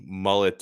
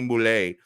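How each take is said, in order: First: The surname is pronounced the plain English way. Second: The surname is pronounced the French way.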